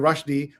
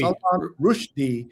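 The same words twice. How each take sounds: First: RUSHDIE as RUSH-dee; common pronunciation. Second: RUSHDIE as ROOSH-dee, with an oo; corrected pronunciation. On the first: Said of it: "the way we all say it". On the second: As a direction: give Rushdie an oo vowel. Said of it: "instead of Rushdie". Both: Shown as a demonstration.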